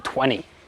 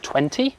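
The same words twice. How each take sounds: First: The T sound in the middle is dropped. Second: The T sound in the middle is pronounced. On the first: "to make an Australian accent, what you need to do is drop every T" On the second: "instead of twenty"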